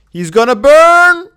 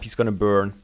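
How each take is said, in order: First: Alarmed, slow and loud; panicked shout. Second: Said in the usual way. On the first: Real, not acted. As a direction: cry out in alarm, drawn out.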